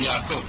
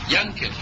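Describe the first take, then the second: First: The middle consonant is a guttural ayin sound. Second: The middle consonant is an ng sound.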